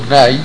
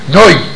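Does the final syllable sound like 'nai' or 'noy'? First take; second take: nai; noy. First: The final vowel sounds like 'ai'. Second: The final vowel sounds like 'oy'. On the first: It keeps the vowel without an inserted sound. The speaker calls it right. "במקום נאי" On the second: It inserts an extra y sound into the vowel. The speaker calls it wrong. "אז אומרים נוי במקום נאי"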